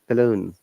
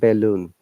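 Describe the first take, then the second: First: The first vowel is weak and reduced. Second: The first vowel is full and stressed. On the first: The speaker calls it right. "We say softly balloon" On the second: The speaker calls it wrong. "We don't say be stress way"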